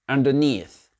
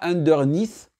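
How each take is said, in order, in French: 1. L'accent tonique est sur la deuxième partie. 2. L'accent tonique est sur la première partie. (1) "l'accent tonique va sur la deuxième partie du mot" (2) "pas underneath. Non"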